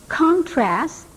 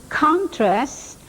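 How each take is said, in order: The two takes are said the same way.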